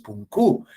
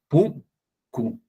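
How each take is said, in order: First: The stress is on the second syllable. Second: The stress is on the first syllable. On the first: The speaker calls it wrong. "no es" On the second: The speaker calls it right. "la mayor fuerza de voz está en la primera sílaba"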